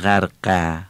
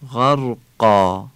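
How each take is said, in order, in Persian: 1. کلمه با مصوت 'e' نازک و سبک تموم میشه. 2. کلمه با مصوت 'aa' پُر و سنگین تموم میشه. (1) "نمیگیم غرقه" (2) "یعنی آ خوانده میشه، مثل همون آی فارسی"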